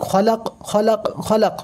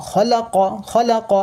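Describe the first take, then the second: First: খলাক closed on a vowelless q; stopping form. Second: খলাক as three short open syllables, kha-la-qa; no stretching. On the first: Quran teacher showing how to pause there, stopping form. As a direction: drop the last vowel, end খলাক on a clicked q. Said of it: "সাকিনে পরিণত হয়ে যাবে". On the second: Quran teacher showing short harakat vowels, no stretching. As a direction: end খলাক on an unstretched "qa". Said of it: "একটাও টান হবে না". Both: Shown as a demonstration.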